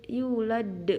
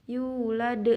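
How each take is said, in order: No difference in how they are said.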